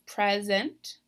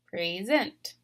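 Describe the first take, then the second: First: The stress is on the first syllable. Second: The stress is on the last syllable. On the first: It names a thing. "before it was present" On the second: It names an action. "I'm stressing this last syllable this time"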